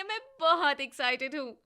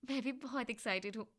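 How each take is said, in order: First: Loud, thrilled "बहुत excited"; loud gushing excitement; excited. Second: Quieter, gentle "भी बहुत excited"; soft, content reply; softly happy. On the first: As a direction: burst out with the excitement. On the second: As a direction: answer warmly and calmly. Payal replies more softly. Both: Acted.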